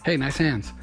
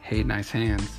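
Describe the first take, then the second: First: It is said as a plain, sincere compliment. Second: It is said in a suggestive, flirty way.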